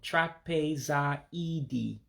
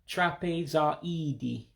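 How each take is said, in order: First: The word is said slowly and drawn out. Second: The word is said at normal speed.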